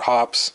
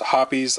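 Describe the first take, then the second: First: The word is said with one syllable. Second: The word is said with two syllables. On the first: This is how the speaker says it. "I call it hops" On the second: This is how some other people say it. "some people call it hoppies"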